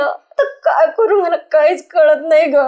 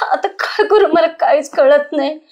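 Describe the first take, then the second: First: Tearful, words catching on a sob; crying. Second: Said in the usual way. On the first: Acted. Wife to her friend after miscarriage, crying. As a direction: plead through tears, lost and scared. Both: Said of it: "रडू नको, शांत हो आता".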